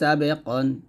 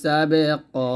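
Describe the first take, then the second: First: The word ends with an added n sound. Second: The word ends on a lengthened a vowel. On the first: "প্রত্যেকটা শব্দের শেষে কিন্তু দুইটা জবর আসছে" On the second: "এক জবর স্থানে রেখে আরেক জবর বাদ দিয়ে আমরা পড়বো এরকম"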